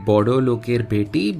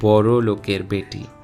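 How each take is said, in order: First: The first word has a d sound in the middle. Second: The first word has an r sound in the middle. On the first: This is how the written letters read. "the lyrics read" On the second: This is how Bengali speakers actually say it. "it is pronounced as"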